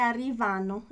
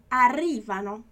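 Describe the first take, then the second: First: Arrivano wrongly stressed on VA; misplaced stress. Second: Arrivano stressed firmly on RI; stress on second syllable. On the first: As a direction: say arrivano as ar-ri-VA-no, stress on the third syllable. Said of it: "não é arrivano". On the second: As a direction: say arrivano as ar-RI-va-no, punching RI. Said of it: "é arrivano". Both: Shown as a demonstration.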